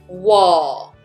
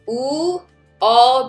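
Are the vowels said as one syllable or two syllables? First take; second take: one syllable; two syllables. First: The two vowels blend into one syllable. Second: The two vowels are said as separate syllables. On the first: "becomes wall" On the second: "U, O becomes"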